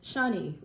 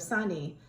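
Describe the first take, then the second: First: The name begins with an SH sound. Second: The name begins with an S sound. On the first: "The name for Saturn in Hindi and in Sanskrit is Shani" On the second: "you just pronounce it with an S, not with an S H"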